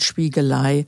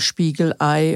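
First: The l links smoothly into Ei without a break. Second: A glottal stop separates Spiegel from Ei. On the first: The speaker calls it wrong. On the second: The speaker calls it right.

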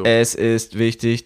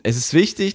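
First: It is said in a robotic voice. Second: It is said in a natural voice.

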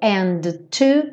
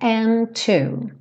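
First: The t sound is released twice, separately. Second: The t sound is released once, joining the words. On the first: The speaker calls it wrong. "Eu não tenho dois ataques aqui, então eu não falo and too" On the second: The speaker calls it right. "e sim and too"

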